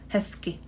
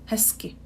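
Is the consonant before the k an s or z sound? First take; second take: s sound; s sound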